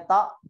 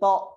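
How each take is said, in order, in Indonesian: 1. Diucapkan tipis, dengan vokal a yang terbuka. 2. Diucapkan berat, dengan vokal o yang membulat. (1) "Nggak boleh bacanya ta" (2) "tapi to"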